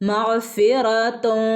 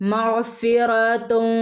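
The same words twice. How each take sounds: First: The final n is hidden in a nasal hum. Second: The same.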